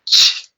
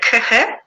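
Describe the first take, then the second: First: The two letters are sounded as one sound. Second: The two letters are sounded as separate sounds. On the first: The speaker calls it right. "It's ch, ch. ... So it makes one sound" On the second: The speaker calls it wrong. "Is it kh, kh, kh? No, right?"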